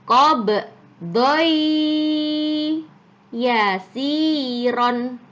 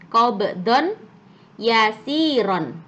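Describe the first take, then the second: First: The n sound disappears, merging into the y. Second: The n sound is clearly pronounced before the y. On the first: The speaker calls it right. "donnya harus masuk ke ya" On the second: The speaker calls it wrong. "awalnya dibaca awalnya gimana tulisannya?"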